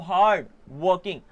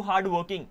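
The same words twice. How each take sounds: First: hard working slower, with a clear break after hard; split in two. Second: Said in the usual way. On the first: Shown as a demonstration. Teacher dividing a word for students, hard, pause, working. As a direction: separate hard from working, each part on its own. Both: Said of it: "इसको दो part में divide कर सकते हो".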